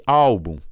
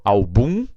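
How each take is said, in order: First: Álbum with ÁL strong, then falling; stress on first syllable. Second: Album said al-BUM, rising on BUM; stress on final syllable. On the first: Teacher shows the difference, stress on ÁL. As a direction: hit the ÁL of álbum, drop -bum. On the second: Teacher shows the difference, stress on BUM. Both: Shown as a demonstration. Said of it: "olha a diferença".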